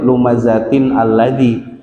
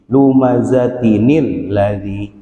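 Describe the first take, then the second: First: Lumazatin and alladzi are said separately, no linking sound. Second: Lumazatin joins alladzi through an added 'nil' sound. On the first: The speaker calls it wrong. "nggak boleh lumazatin alladzi" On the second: The speaker calls it right. "Jadi lumazatinil ladzi"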